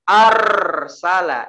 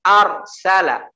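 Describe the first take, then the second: First: The r sound is drawn out and lengthened. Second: The r sound is short and crisp. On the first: The speaker calls it wrong. "itu dilamakan ra-nya. Itu di diseret, itu yang salah" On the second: The speaker calls it right. "Tetap ucapkan ar salah"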